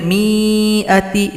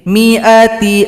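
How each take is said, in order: First: The vowel after the m is drawn out long. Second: The vowel after the m is short. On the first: The speaker calls it wrong. "Tidak boleh mi'ati, itu salah" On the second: The speaker calls it right. "Jadi mi-nya dibaca pendek"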